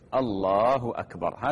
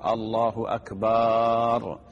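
First: The vowel after the b is kept short. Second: The vowel after the b is drawn out long. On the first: The speaker calls it right. "هذا هو التكبير" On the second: The speaker calls it wrong. "يمد باء أكبر، وهذا خطأ لأنه يتغير المعنى"

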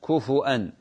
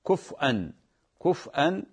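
First: The f takes a u vowel, then a glottal stop. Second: The f has no vowel, then a glottal stop. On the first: "بالهمز كفوا أن ضم الفاء مع بعدها همز" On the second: "إسكان الفاء مع الهمز"

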